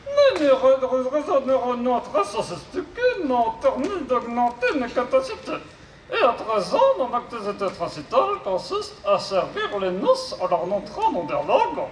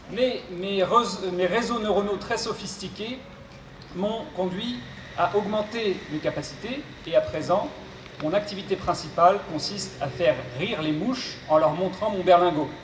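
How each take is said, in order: First: High robot voice with garbled consonants. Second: Said in the usual way. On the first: Acted. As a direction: mangle the consonants like a glitchy robot. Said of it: "souffre d'une pathologie vocale". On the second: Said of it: "je serai son interprète".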